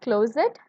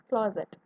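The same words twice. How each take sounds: First: "closet" said with a long o, as klo-zet; common pronunciation. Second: "closet" with a short rounded o, as klɔzət; British pronunciation. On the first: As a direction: read "closet" as klozət, plain vowel. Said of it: "we pronounce it as". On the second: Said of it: "according to the British pronunciation". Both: Shown as a demonstration.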